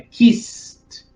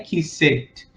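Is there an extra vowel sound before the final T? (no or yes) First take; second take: no; yes. First: No extra vowel is sounded before the final T. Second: An extra vowel is sounded before the final T. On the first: The speaker calls it right. "é kissed" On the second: The speaker calls it wrong. "Não adianta colocar o T lá e colocar o E, porque não é kissed"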